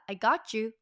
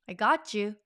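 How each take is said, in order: First: The words are blended together into one unit. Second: The same.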